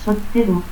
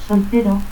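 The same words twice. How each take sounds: First: Soltero as "sotteru". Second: Said in the usual way. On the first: Shown as a demonstration. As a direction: stop instead of L in Soltero, final u. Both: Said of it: "confusión de L y T al final de sílaba".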